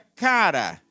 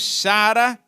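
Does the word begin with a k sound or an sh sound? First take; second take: k sound; sh sound. First: The word begins with a k sound. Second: The word begins with an sh sound. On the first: It is the original Greek pronunciation. The speaker calls it right. "mas na verdade seria cara" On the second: It is read the way it is spelled. The speaker calls it wrong. "nós lemos chara aqui porque está C H A R A"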